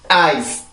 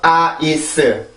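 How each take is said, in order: First: It is said as one single syllable. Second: It is said as three separate syllables. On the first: The speaker calls it right. "일 음절이에요" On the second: The speaker calls it wrong. "아이스 이렇게 세 번에 걸쳐서 소리를 하는데"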